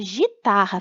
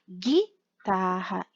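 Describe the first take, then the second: First: The word starts with a soft zh sound. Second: The word starts with a hard g sound. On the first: The speaker calls it wrong. "Se eu não colocar o U do dígrafo, fica gitarra, fica errado" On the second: The speaker calls it right. "Para eu ter o som de G, eu tenho que colocar a letra U"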